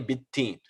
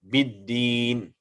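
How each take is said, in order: First: The dal is pronounced like a t sound. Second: The dal is pronounced as a clear d sound. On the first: The speaker calls it wrong. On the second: The speaker calls it right.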